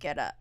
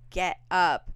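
First: It is said at a normal, calm volume. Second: It is screamed very loudly.

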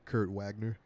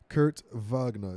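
First: The name is said with an American accent. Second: The name is said with a German accent. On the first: "if you were to Americanize it" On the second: "if you're putting the German accent on it"

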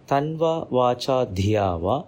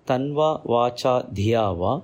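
The two takes are said the same way.

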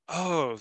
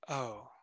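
First: It is said with excitement. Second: It is said calmly, without excitement.

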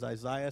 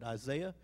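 First: The name is said the South African way. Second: The name is said the ordinary, familiar way. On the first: "everybody in South Africa says Isaiah" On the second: "You would pronounce it Isaiah"

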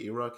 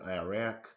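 First: It is said with a British pronunciation. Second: It is said with an American pronunciation. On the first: "We say Iraq" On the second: "They say Iran, Iraq"

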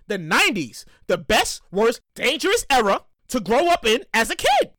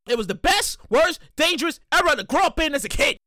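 First: It is said more slowly. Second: It is said fast.

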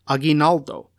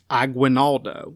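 First: The name is said with a Spanish pronunciation. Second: The name is said with an English pronunciation. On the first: The speaker calls it right. "with his Spanish pronunciation" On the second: The speaker calls it wrong. "the English version, which is pronounced"

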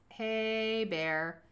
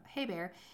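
First: It is yelled loudly at full volume. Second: It is said softly in a casual tone.

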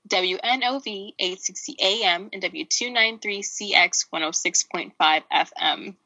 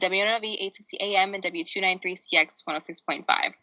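First: It is said slowly. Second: It is said fast.

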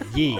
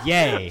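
First: The vowel sounds like 'ee'. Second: The vowel sounds like 'ay'. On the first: The speaker calls it wrong. "Tristan said" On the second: The speaker calls it right. "It's yay"

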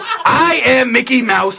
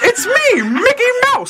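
First: It is said in a normal gruff voice. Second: It is said in a high Mickey Mouse voice.

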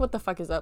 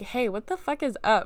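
First: It sounds hostile and accusing. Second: It sounds friendly and curious.

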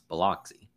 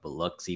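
First: It is pronounced the common outsider way. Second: It is pronounced the local Mississippi way. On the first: The speaker calls it wrong. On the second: The speaker calls it right.

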